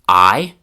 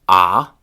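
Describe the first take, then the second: First: It is said with the full 'eye' vowel. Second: It is said as a short open 'ah' vowel. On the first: "starting with the most classroom-like"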